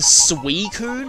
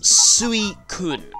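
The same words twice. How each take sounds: First: The first syllable is said as one 'swee' sound. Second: The first syllable splits into separate 'su-i' vowels. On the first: The speaker calls it wrong. "people often say Suicune as if it's S W E E" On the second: The speaker calls it right. "that's not really what it is. It's Suicune. And it's more of a hard sound, like a hard K"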